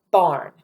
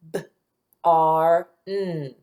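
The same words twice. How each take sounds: First: Said in the usual way. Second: B-R-N as separate sounds: b, long ar, n; sounded out. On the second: Shown as a demonstration. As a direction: break B-R-N into slow, separate speech sounds. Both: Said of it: "listen to those sounds".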